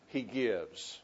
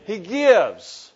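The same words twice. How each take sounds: First: Quiet, lower resolution; a hushed payoff; soft, low close. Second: Preacher driving the refrain home; loud, emphatic answer. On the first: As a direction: drop low and soft on the answer. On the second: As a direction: punch it out loud. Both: Shown as a demonstration. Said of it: "say it with me".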